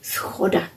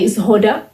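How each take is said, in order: First: The word begins with a voiceless s sound. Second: The word begins with a voiced z sound. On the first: The speaker is from Bohemia. "Bohemian would say schoda" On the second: The speaker is from Moravia. "Moravian will say zhoda"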